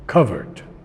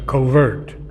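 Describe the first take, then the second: First: The word is said with a British pronunciation. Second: The word is said with an American pronunciation. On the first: "the British pronounce it covered" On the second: "We say in America covert"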